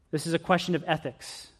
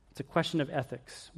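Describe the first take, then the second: First: Said in the usual way. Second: Softer emphatic repeat. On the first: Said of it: "The first one was a question of theodicy". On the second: Shown as a demonstration. Preacher restating the point to the congregation, softer. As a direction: question of ethics dropped softer, leaning on question. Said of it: "The next question is a question of ethics".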